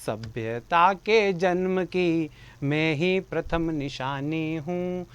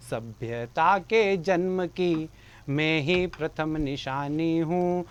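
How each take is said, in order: Both takes have the same delivery.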